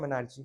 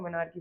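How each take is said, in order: First: The word ends with a 'chee' sound. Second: The word ends with a 'kee' sound. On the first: The speaker calls it wrong. "मेनार्ची मत बोलना, कुछ बच्चे बोलते हैं मेनार्ची" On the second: The speaker calls it right. "Start को मेनार्की बोलेंगे"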